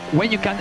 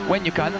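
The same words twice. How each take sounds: The two takes are said the same way.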